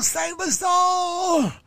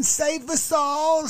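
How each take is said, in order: First: Higher, very slow hammed-up shout of the plea; mock wailing shout. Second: High, slow mocking plea of an older lady; mock pleading plea. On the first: Older lady pleading again, hammed-up high slow shout. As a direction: wail "Save us all" at the top of a mock voice. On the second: Older lady begging viewers to be saved, high slow mock plea. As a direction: drag out a pleading "Save us all" up high. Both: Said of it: "She's like".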